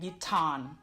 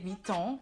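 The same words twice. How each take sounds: First: The ending of the word is pronounced. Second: The ending of the word is dropped. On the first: The speaker calls it wrong. "instead of saying Vuitton" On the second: The speaker calls it right. "you don't pronounce the ending of the last name Vuitton. So you say Vuitton"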